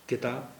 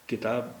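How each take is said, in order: Both takes have the same delivery.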